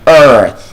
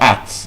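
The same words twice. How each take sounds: First: The vowel is a long er sound. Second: The vowel is not a long er sound. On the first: The speaker calls it right. "Words like earn" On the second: The speaker calls it wrong. "It's not Earth"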